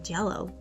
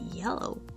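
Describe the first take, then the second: First: The word starts with a J sound. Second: The word starts with a Y sound. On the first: The speaker calls it wrong. "Instead of saying Jello" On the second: The speaker calls it right. "say yellow"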